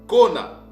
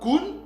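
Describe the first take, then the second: First: The word is two syllables ending in a. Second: The word is one syllable ending in n. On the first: The speaker calls it right. "mais ça se lit ou ça se lisait kona" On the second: The speaker calls it wrong. "ne se lit pas kun ou kon"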